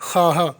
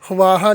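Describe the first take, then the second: First: खाहा said as khaahaa, no v sound; खाहा read with the v silent; correct pronunciation. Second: ख्वाहा said as khwaahaa, the v sounded; ख्वाहा voiced with the v, the wrong way; wrong pronunciation. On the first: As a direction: say खाहा plainly: khaa-haa. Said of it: "ख्वाहा नहीं पढ़ेंगे, खाहा". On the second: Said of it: "ख्वाहा नहीं पढ़ेंगे". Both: Shown as a demonstration.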